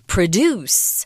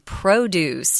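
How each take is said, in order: First: The stress is on the second syllable. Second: The stress is on the first syllable. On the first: The word is used as a verb. The speaker calls it wrong. "not produce" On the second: The word is used as a noun. The speaker calls it right. "I'm pronouncing this word P R O D U C E, produce"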